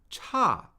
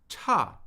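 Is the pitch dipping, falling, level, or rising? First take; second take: falling; falling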